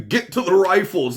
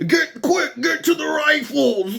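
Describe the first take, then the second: First: Said in the usual way. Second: Much higher, urgent mock battle cry; action movie hero. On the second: Host mocking the shooter as an action hero, high hammed-up yell. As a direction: ham it up like a movie soldier rallying troops. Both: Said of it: "think they're in an action movie".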